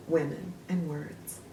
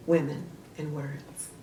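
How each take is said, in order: Both takes have the same delivery.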